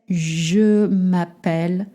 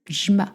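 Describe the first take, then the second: First: Every syllable is said slowly and in full. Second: The phrase is run together quickly as one syllable. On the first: The speaker calls it wrong. "you sound really slow-mo" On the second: The speaker calls it right. "This is how you want to pronounce it"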